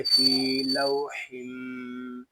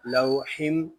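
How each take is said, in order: First: फी लौहिम with a nasal merge held; फी लौहिम with ghunna; correct reading. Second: लौहिम without the nasal merge; लौहिम without ghunna; wrong reading. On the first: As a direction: hum through फी लौहिम. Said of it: "तो पढ़ेंगे फी लौहिम". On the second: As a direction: say लौहिम plainly. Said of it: "इस तरह नहीं पढ़ेंगे". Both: Shown as a demonstration.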